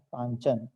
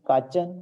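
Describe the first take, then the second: First: The first syllable has an n sound. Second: The first syllable has no n sound. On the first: The speaker calls it right. "न का उच्चारण होना है" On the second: The speaker calls it wrong. "यहाँ लिखा है काचन"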